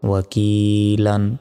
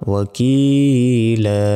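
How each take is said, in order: First: The word ends with an n sound. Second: The word ends with a long a vowel. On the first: "এখানে দুই জবর আছে" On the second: "থামলে এখানে একটা জবরের উচ্চারণ হবে এবং এক আলিফ টান হবে"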